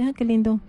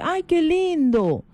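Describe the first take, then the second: First: It is said in a very flat tone. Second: It is said in a tender, sweet tone.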